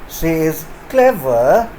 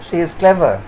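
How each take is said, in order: First: The voice falls and then rises. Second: The voice falls at the end. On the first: She is clever but something else is implied. "with a falling rising tone like this" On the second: She really is clever. "with a falling tone"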